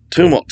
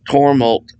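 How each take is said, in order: First: "tumult" said clearly as "TOO-mult"; corrected TUMULT. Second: "tumult" misread as "tormult"; mispronounced TUMULT. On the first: Teacher correcting a misreading, "tumult" said carefully as "TOO-mult". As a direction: fix "tumult" with an oo in the first syllable. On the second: Teacher misreading scripture aloud, "tumult" slipped into "tormult". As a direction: stumble on "tumult", saying it "TOR-mult". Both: Real, not acted. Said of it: "tumult, sorry".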